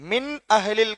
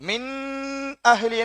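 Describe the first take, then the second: First: The noon is said short and clearly. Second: The noon is stretched and held long. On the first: The speaker calls it right. "இந்த நூனை நம்ம உச்சரிக்கணும் நல்லா" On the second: The speaker calls it wrong. "நீட்டக்கூடாது, பிழ"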